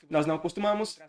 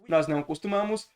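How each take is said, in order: No difference in how they are said.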